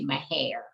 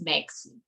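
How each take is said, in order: First: The name is said with the local area pronunciation. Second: The name is said with an outsider's pronunciation. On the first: The person saying it is from the area. "if you are a Texan or if you are from that area, you call that local community" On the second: The person saying it is not from the area. "If you're not, then you pronounce it as"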